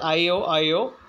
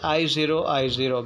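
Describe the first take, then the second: First: The symbol after each I is read as letter O. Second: The symbol after each I is read as zero. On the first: The speaker calls it wrong. "it can also pronounce it as IOIO" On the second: The speaker calls it right. "actually it should be pronounced as I0I0, because there are no antigens in it"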